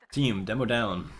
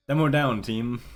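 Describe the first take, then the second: First: Said in the usual way. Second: Urgent callout. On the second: Retold or imitated. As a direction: bark it like a live team call. Mimicking in-game callout.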